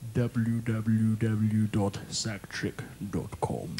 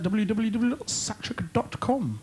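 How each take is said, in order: First: It is said more slowly and deliberately. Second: It is said at a normal, quicker pace.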